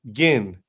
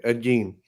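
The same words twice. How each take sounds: First: Gein with a short i, like "gin"; mispronounced Gein. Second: Gein with a long ee, like "geen"; corrected pronunciation. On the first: Real, not acted. Host unsure of the killer's name, Gein said like "gin". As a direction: say Gein to rhyme with "pin". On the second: Shown as a demonstration. Host confirming the corrected name, Gein rhyming with "seen". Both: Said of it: "That's how you say it".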